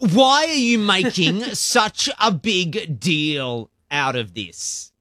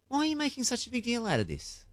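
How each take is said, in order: First: It sounds annoyed and confrontational. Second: It sounds curious and genuinely puzzled.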